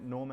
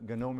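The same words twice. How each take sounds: First: The word begins with an N sound. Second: The word begins with a hard G sound. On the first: The speaker calls it wrong. "Some people call it GNOME as well" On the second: The speaker calls it right. "the right pronunciation with the hard G"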